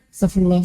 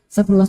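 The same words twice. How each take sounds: First: It is said slowly and relaxed. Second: It is said a little faster.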